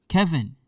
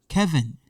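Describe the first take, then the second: Both takes have the same delivery.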